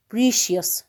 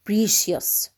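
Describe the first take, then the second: No difference in how they are said.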